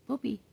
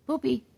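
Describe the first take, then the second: First: Quiet demo word. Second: High poopy for the bird; demo word for bird. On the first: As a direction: say Poopy softly for her to copy. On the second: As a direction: say Poopy high so she copies. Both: Shown as a demonstration. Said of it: "can you say poopy".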